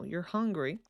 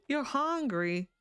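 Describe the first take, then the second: First: Said in the usual way. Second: High, drawn-out mock whine. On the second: Player teasing a hungry game character, mock whine. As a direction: stretch it out high, playfully whiny.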